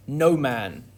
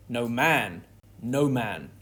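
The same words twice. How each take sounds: First: No punched louder, man falls away; stress on NO. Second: No man, no man with no said lightly and man carried evenly; weight off no. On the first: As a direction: hit the word no hard. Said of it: "The stress on "no". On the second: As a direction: say no man without punching no. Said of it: "would stop the actor from saying it as". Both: Shown as a demonstration.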